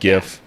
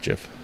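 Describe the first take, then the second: First: It starts with a hard G sound. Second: It starts with a soft G sound. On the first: It follows the word graphical. The speaker calls it wrong. "My logical brain says it's a graphical image something file, so it should be" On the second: It follows the creator's preference. The speaker calls it right. "But no, it's"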